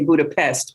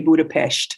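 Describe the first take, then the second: First: Budapest is pronounced the English way. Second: Budapest is pronounced the Hungarian way. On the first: This is how the speaker naturally wants to say it. The speaker calls it wrong. "I really want to say Budapest" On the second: This is how the locals insist it be said. The speaker calls it right. "they forced me to say Budapest. That I think that's the correct way to say it"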